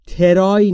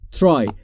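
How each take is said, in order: First: A vowel is inserted between t and r. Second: No vowel comes between t and r. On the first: The speaker calls it wrong. "ترای نیست دوستان" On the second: The speaker calls it right. "بین تی و آر صدایی وجود نداره"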